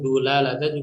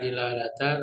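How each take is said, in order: First: The first syllable has the vowel u. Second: The first syllable has the vowel i. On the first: "atau bahkan dulalatan juga bisa" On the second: "ini bisa dibaca dilalatan atau dalalatan bisa"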